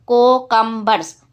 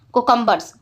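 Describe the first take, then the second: First: कोकम्बर्स split into co, cum, bers; syllable by syllable. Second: Said in the usual way. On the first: Shown as a demonstration. Teacher showing the class three syllables, कोकम्बर्स said piece by piece. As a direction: say कोकम्बर्स in three separate beats. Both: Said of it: "Break the given words into syllables".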